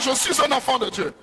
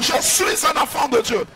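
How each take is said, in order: First: It is said at normal volume. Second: It is said very loudly.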